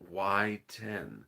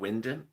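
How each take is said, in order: First: The first syllable sounds like 'why'. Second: The first syllable sounds like 'win'. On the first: The speaker calls it right. "Why Wyden" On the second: The speaker calls it wrong. "I was making Wyndon"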